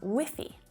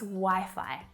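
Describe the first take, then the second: First: It sounds like the slang word 'whiffy'. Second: It sounds like the standard word 'Wi-Fi'. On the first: The speaker calls it wrong. "my students often mispronounce by saying Wi-Fi, which actually sounds a little bit like a very informal word for kind of smelly" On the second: The speaker calls it right. "It's Wi-Fi"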